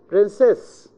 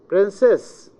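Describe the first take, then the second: First: The stress is on the second syllable. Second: The same.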